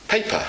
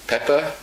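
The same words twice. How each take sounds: First: "paper" with a long ay vowel; intended word paper. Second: "pepper" with a short e, meant as paper; French mispronunciation. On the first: Teacher giving the intended word, "paper" with clear ay. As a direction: stretch the first vowel of "paper" to ay. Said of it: "they mean paper". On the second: Teacher showing a French learner's slip, "pepper" with short e. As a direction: say "pepper" where paper is intended. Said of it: "when a French person says pepper". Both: Shown as a demonstration.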